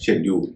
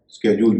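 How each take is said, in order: First: The word begins with an sh sound. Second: The word begins with an sk sound. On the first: "इसका उच्चारण है शेड्यूल" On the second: "कई लोग इसको स्केड्यूल भी कहते हैं, वह भी सही उच्चारण है"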